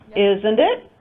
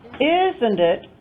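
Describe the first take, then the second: First: The voice rises at the end. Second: The voice falls at the end.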